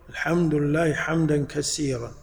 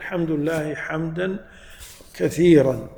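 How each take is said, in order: First: The last word has an 's' sound. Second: The last word has a 'th' sound. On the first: Praise to God, broken praise. The speaker calls it wrong. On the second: Praise to God, much praise. The speaker calls it right.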